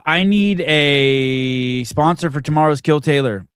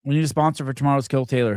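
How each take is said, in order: First: Booming, drawn-out call to listeners; slow loud announcement. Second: Rattled off fast, at normal volume; quick repeat. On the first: Host calling out to listeners for a sponsor, slow and loud. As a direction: stretch it out big and loud like a broadcast plea. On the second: Host repeating the sponsor request to listeners, fast and offhand. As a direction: toss the line off quickly as an aside. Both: Real, not acted.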